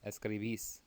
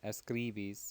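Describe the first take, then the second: First: The stress falls on the last syllable. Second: The stress falls before the last syllable. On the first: The speaker calls it right. "Make sure you're hitting that accent on the last syllable" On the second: The speaker calls it wrong. "It's not"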